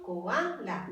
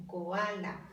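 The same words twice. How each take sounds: First: Said in the usual way. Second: Koala, slowed, with a small break between ko and ala; slow syllable split. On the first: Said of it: "respetamos las reglas de acentuación". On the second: Shown as a demonstration. Teacher to students, showing the hiatus in koala, slowly split. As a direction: pull koala apart as two separate syllables, slowly. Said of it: "se separan en dos sílabas".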